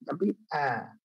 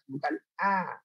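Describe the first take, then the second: First: The sound is made deep in the throat. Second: The sound is made high in the throat. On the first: The speaker calls it right. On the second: The speaker calls it wrong. "bukan di atas, bukan a"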